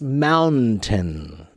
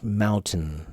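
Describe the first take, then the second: First: It is said slowly with a clear middle N. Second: It is said quickly with the middle N nearly silent. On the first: "if you pronounce it slowly, it's mountain" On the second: "when we say it quickly... almost no one really pronounces that N"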